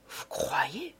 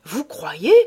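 First: Much softer, hushed question; half to himself, unsure; doubtful repeat. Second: Louder, pressing question in another voice; insistent repeat. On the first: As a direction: judge repeating it softly to himself. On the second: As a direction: push the question back at him. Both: A narrator's reading. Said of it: "répétait monsieur Filleul".

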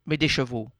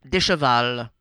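First: "des chevaux" said as the right form; correct plural chevaux. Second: "des chevals" said as the wrong form; wrong plural chevals. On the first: Correcting a plural, the right "des chevaux" after. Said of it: "on ne dit pas ... mais". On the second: Correcting a plural, the wrong "des chevals" first. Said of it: "on ne dit pas". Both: Shown as a demonstration.

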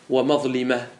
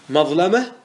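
First: ومظلمة said "wa-mazlima", with an i; kasra form. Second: مظلمة said "mazlama", with an a; fatha form. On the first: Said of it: "وجهان". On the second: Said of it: "ما ورد بالوجهين". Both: Shown as a demonstration.

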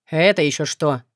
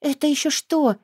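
First: Slightly lower, caught off guard; thrown off. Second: Higher, sheepish puzzled question; guilty mumble. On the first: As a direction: falter as he turns around. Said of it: "сбился Артей". (сбившись, в растерянности, чуть ниже) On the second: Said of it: "виновато пробормотала я". (виновато, растерянно, выше) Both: A narrator's reading.

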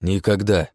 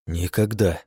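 First: Flat deadpan refusal; monotone. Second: Same flat deadpan refusal; monotone. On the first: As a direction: drop it flat, no emotion. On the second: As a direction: repeat it flat and final. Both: A narrator's reading. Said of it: "монотонно ответил я".

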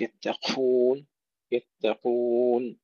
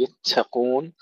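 First: يتقون slowly, with the تاء and قاف not whispered; correct pronunciation. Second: يتقون with the تاء and قاف whispered; wrong, breathy يتقون; wrong pronunciation. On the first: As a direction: drag out يتقون with a firm قاف. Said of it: "لا نهمس التاء المشددة". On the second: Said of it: "لا نقول يتقون". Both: Shown as a demonstration.

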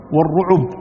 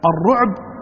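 First: "والرعب" as wa-r-ruʕub, a short u after the ain; "والرعب" بضم العين; with damma. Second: "الرعب" as ar-ruʕb, ain closed with no vowel after it; "الرعب" بسكون العين; with sukun. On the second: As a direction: clip "الرعب" short, ruʕb with a silent ain. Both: Shown as a demonstration. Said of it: "يعني بسكون العين وبضمها".

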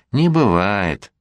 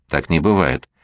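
First: Slow, drawn-out mocking echo of "Не бывает". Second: Said in the usual way. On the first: A narrator's reading. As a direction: stretch "Не бывает" slowly to tease her. Mother mockingly echoes daughter.

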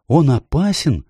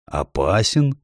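First: Put-on high, anxious child's question; a worried girl asking; Lucy's question. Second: Beaver's echo. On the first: Lucy asks Mr Beaver, high and worried. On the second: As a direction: throw the word back in disbelief. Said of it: "повторил мистер Бобёр". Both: A narrator's reading.

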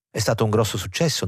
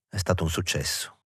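First: Bright, quick question rising on "stato"; eager mother. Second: Mechanical reply. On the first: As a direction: push "grosso successo" fast, rising on "stato". Mother eagerly asks about premiere. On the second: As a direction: say it absently, falling on "stato". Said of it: "Lui rispose meccanicamente". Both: A narrator's reading.

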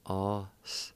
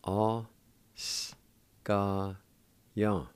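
First: Said in the usual way. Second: Slow, syllable by syllable. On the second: Shown as a demonstration. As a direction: split the word into syllables, one at a time. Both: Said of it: "It's pronounced like this".

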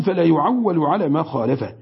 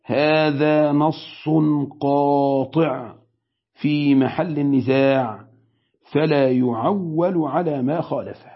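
First: Said in the usual way. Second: Very slow, every word weighed, قاطع dragged out; slow weighty quote. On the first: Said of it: "فالإمام ابن قدامة بيقول". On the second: Shown as a demonstration. Sheikh quoting Ibn Qudama to students, slow and weighty. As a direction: read it like a verdict, slowly. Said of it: "كلمة حاسمة عظيمة وكبيرة".

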